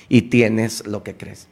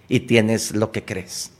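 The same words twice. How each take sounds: The two takes are said the same way.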